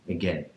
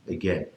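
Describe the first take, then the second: No difference in how they are said.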